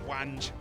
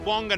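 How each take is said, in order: First: The name is said the way a British speaker would. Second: The name is said closer to Chinese pronunciation. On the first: The speaker calls it wrong. "the British part of me is like, that's Wange" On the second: The speaker calls it right. "we have to stay close to the Chinese pronunciations"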